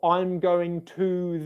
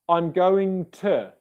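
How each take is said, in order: First: The word 'to' has a full vowel. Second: The word 'to' has a reduced schwa vowel. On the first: The speaker calls it wrong. "instead of saying" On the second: The speaker calls it right. "use the weak pronunciation"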